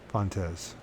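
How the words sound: The name is said with an English sound. "then there's English"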